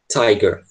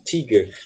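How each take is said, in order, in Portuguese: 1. A primeira vogal soa como eye. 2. A primeira vogal soa como ee. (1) "É tiger mesmo, esse i vai ter som de i" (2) "Eu já vi muita gente pronunciando tiger, mas não é"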